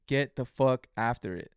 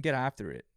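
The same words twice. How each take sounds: First: Slower, punched get the fuck after it; emphatic command. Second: Said in the usual way. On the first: Shown as a demonstration. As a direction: hammer each word like a coach. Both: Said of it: "repeated exhortation".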